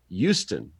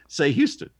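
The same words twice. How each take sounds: First: The 'h' at the start is silent. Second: The 'h' at the start is pronounced. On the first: "like the H is silent" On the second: "And I'll say Houston"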